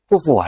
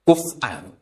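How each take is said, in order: First: A w sound replaces the glottal stop. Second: A glottal stop comes before the last syllable. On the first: "Imam Asim bacanya kufuan. ... mahmus kok diganti" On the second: "Kafa yakfa'u kuf'an"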